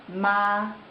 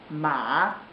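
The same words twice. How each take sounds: First: It is said with the first Mandarin tone. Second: It is said with the third Mandarin tone. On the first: "The first tone is ma" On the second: "Third tone ma"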